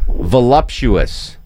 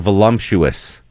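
First: It is said without an added M sound. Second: It is said with an added M sound. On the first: The speaker calls it right. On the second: The speaker calls it wrong.

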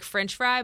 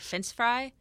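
First: The first word ends with a 'ch' sound. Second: The first word ends with a plain 's' sound. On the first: The speaker calls it right. "Like French fry" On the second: The speaker calls it wrong. "but I'd say fence fry"

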